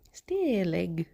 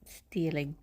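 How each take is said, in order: First: Said in the usual way. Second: Whispering. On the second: Pretend. Repeats the word, first whispered.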